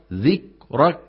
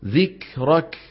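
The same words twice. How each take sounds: First: "ذكرك" with both kafs choked, no puff; missing breath. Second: "ذكرك" with a small puff closing each k; correct breathed kaf. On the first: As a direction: cut the air off after each k in "ذكرك". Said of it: "الخطأ". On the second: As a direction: release air after the k in "ذكرك". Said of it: "والصواب". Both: Shown as a demonstration.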